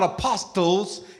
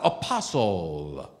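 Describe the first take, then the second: First: The T sound is clearly pronounced. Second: The T sound is left silent. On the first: The speaker calls it wrong. "It's not apostles" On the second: The speaker calls it right. "The T is silent"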